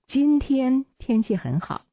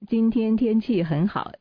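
First: The word 今天 is stressed. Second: No word is given special stress. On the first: "这是重点在今天" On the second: "这是没有重点的"

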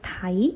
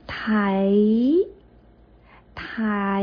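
First: The syllable is said at normal speed, joined. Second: The syllable is slowed and drawn out in parts. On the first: "把它连起来就是台" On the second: "我放慢一点把这个音把它发完整"

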